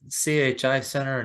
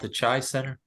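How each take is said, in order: First: CHI is spelled out as three separate letters. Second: CHI is said as a single one-syllable word. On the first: "makes more sense that you would say C H I" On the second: "I've walked around calling it the Chi Center"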